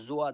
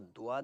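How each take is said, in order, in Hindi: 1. यह j की आवाज़ से शुरू होता है। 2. यह एक सामान्य d की आवाज़ से शुरू होता है। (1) "ये तीनों आवाज़ें गलत हैं" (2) "ये तीनों आवाज़ें गलत हैं"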